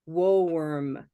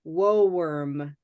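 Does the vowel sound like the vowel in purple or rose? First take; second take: rose; rose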